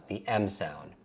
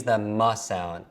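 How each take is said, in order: First: "M" said as the letter name em. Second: "M" said as the sound muh. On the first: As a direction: say "M" as em, softer. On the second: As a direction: say "M" as muh, not the letter name. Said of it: "Three is the M sound". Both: Shown as a demonstration.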